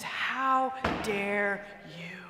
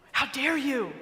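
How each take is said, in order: First: Drawn-out, seething how dare you; slow seething resentment. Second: How dare you snapped at normal pace; bitter retort. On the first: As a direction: let How dare you crawl out slowly, held in. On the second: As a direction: throw How dare you straight back at him. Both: Retold or imitated. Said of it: "The resentment just bubbles over".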